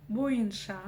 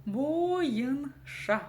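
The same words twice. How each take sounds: First: «Боенша» слитно, «о» плавно переходит в «ы»; скажи «Боенша» одним словом, без растяжки; слитное чтение. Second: «Боенша» медленно, «бо-йын-ша»; растяни каждый слог в «Боенша»; по слогам. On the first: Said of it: "Она смазывает букву". («Боенша» коротко, с мягкой связкой через «й») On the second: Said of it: "Каждая буква здесь должна прочитаться". («Боенша» врастяжку, каждая буква слышна) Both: Shown as a demonstration.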